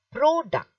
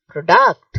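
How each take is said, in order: First: "product" with PRO high; stress on first part. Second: "product" said as pro-DUCT; stress on second syllable. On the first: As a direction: hit the first syllable of "product" high, then fall. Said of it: "you're stressing the first part". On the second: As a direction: shift the punch to the end of "product". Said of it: "it means it is wrong pronunciation". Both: Shown as a demonstration.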